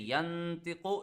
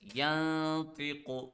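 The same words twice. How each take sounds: First: The n is fully articulated with the tongue. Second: The n is hidden nasally without tongue contact. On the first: The speaker calls it wrong. "If I say yantiqu, it will turn into gunna. That's not what we know, what we want" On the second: The speaker calls it right. "Like this, yantiqu. So my tongue is not touching anywhere"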